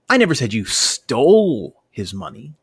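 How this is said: The word 'stole' is stressed. The money may have been taken some other way than stealing. "maybe I think you embezzled the money or accidentally walked off with it"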